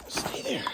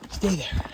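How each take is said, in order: First: Breathy whisper "Stay there.". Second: Said in the usual way. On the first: Real, not acted. Filming a creature, keeping quiet.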